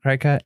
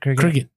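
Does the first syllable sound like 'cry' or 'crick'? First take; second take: cry; crick. First: The first syllable sounds like 'cry'. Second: The first syllable sounds like 'crick'. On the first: The speaker calls it wrong. "Is it cry cut?" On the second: The speaker calls it right. "Is it cricket?"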